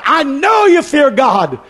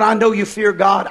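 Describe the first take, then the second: First: High, drawn-out, forceful declaration; emphatic repeat. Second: Said in the usual way. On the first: Acted. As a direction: proclaim it slowly with raised voice. Angel's line, repeated with force.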